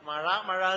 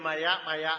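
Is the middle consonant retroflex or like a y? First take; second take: retroflex; y. First: The middle consonant is a retroflex zh sound. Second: The middle consonant is a plain y sound. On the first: The speaker calls it right. "അല്ലെങ്കിലോ മഴ മഴ എന്ന് പറയില്ല" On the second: The speaker calls it wrong. "മയ മയ എന്ന് പറയും"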